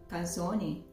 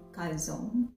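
First: The word is said the Italian way. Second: The word is said the American way. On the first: "in Italian they call it calzone" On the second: "American called it calzone"

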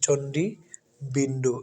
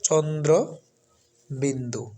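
First: The first word is said as chondi. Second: The first word is said as chondro. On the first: The speaker calls it wrong. "আমরা এটাকে অনেকে চণ্ডী বিন্দু পড়ি" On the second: The speaker calls it right. "সেটা হচ্ছে চন্দ্র বিন্দু"

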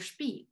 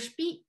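First: The final syllable has a falling tone. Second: The final syllable has a high tone. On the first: It means wheat bran. "with the falling tone means wheat bran" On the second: It means seed. "with the high tone means seed"

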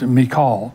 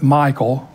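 First: The name sounds different from the name Michael. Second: The name sounds like the English name Michael. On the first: This is the original way to say it. The speaker calls it right. "but it's really pronounced Michal" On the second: This is the common way people say it. The speaker calls it wrong. "we usually pronounce it Michael"

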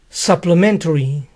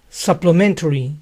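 Both takes have the same delivery.

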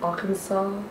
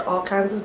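First: The word ends with a 'saw' sound. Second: The word ends with a 'sas' sound like 'Kansas'. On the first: This is how the state's name is actually said. The speaker calls it right. "but I know it's Arkansas" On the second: This is the guess based on the spelling. The speaker calls it wrong. "I was gonna say Arkansas"

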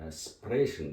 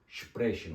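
First: The word begins with a plain s sound. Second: The word begins with an sh sound. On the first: The speaker calls it wrong. "sprechen değil" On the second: The speaker calls it right. "sprechen oldu"

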